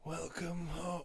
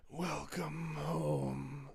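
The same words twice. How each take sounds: First: Slow, eerie creature growl; monster voice. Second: Drawn-out soft creature growl; monster voice. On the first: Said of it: "I like doing my monster voice". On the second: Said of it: "You want me to do the monster voice?". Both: Acted.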